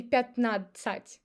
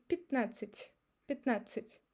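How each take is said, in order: First: Пятнадцать as pyat-nad-tsat; unreduced vowels. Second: Пятнадцать as pit-NA-tsit; reduced unstressed Я. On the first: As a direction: spell out пятнадцать with full ya and ah. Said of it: "I don't say". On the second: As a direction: weaken Я to i and last A in пятнадцать. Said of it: "I say". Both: Shown as a demonstration.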